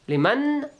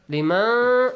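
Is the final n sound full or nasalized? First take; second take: full; nasalized. First: The n is fully made with the tongue. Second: The n is hidden, sounding only through the nose. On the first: The speaker calls it wrong. "it touches" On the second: The speaker calls it right. "it doesn't touch"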